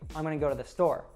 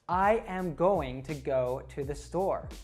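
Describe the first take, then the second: First: The words are fast, reduced and run together. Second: Every word is said slowly and separately. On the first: The speaker calls it right. "A native would say" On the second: The speaker calls it wrong. "in a really slow way... it sounds kind of robotic"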